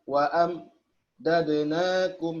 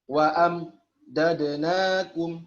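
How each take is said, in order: No difference in how they are said.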